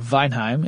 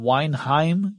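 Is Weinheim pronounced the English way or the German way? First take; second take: German; English. First: The name is pronounced the German way. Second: The name is pronounced the English way.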